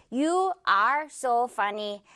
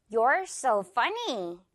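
First: "You are so funny" word by word, like a robot; stiff, robotic. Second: "You're so funny" with "You're" as one syllable; natural contraction. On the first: Teacher shows learners how people don't talk, robotic. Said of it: "이렇게 딱딱하게 로봇처럼 이야기하지 않죠". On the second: Teacher models everyday speech for learners, naturally contracted. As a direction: link it naturally, "You're" run together in "You're so funny". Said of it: "조금 빠르게 자연스럽게 말해야 하기 때문에". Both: Shown as a demonstration.

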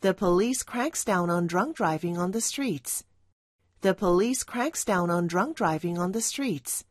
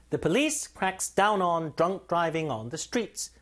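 First: Put-on The police cracks down on drunk driving on the streets, light stress on cracks; lighter stress. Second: Put-on The police cracks down on drunk driving on the streets, four stressed words, very slow; four stresses. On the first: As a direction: press only slightly on cracks. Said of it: "보다 살짝, 살짝 힘을 주세요". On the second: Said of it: "강세 네 군데". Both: Shown as a demonstration.

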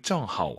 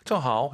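First: "正好" with "好" kept low, not rising; careful "正好", no lift on "好"; strict low third tone. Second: "正好" with "好" allowed to rise; casual "正好", lifting "好" at the end; relaxed rising tone. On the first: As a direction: let "好" stay down at the end of "正好". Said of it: "하오는 올라가면 안 되죠". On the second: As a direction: let the pitch go up on "好" in "正好". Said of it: "해도 뭐 문제는 없습니다". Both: Shown as a demonstration.

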